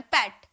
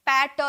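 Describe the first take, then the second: First: Said in the usual way. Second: "पैट" split into पै and a separate ट; two-sound mispronunciation. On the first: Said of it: "एक ही बार में". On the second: Shown as a demonstration. Teacher showing sound does not come out twice, split syllable. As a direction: break "पैट" into two beats, sounding the final ट alone. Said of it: "दो बार ऐसे sound थोड़ी निकल रहा".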